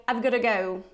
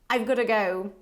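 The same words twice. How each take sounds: The two takes are said the same way.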